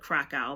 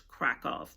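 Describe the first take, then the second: First: The city name is said the German-derived way. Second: The city name is said the Polish way. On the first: The speaker calls it wrong. "Some people call it Krakow" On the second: The speaker calls it right. "the correct pronunciation is Krakow. That is how Polish people um, pronounce it"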